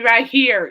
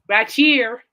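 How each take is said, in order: First: It is said in a plain, standard accent. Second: It is said in a Texan accent. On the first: "so when you say right here" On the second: "it's actually right here"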